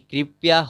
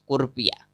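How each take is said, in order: First: The first syllable is pronounced 'kri'. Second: The first syllable is pronounced 'kur'. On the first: The speaker calls it right. "जैसे कृपया होता है" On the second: The speaker calls it wrong. "उसको कुर्पिया पढ़ते हैं"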